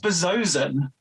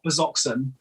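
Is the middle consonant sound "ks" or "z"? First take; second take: z; ks. First: The middle consonant is said as "z". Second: The middle consonant is said as "ks". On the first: The speaker calls it right. "it is Bezozen" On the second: The speaker calls it wrong. "it is not Bezoxen"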